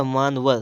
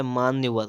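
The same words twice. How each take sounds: First: "मानवर" as maan-var; wrong form. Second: "मान्यवर" as maanya-var; corrected form. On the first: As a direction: say "मानवर" with no y sound. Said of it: "तो होता है मान्यवर". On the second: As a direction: add a y-glide after n in "मान्यवर". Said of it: "तो होता है". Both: Shown as a demonstration.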